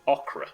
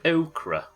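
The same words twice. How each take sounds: First: It is said in a Yorkshire accent. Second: It is said in a Southern English accent. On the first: "if you're from Yorkshire, we don't have that first syllable" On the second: "if you're from down south, you pronounce it okra"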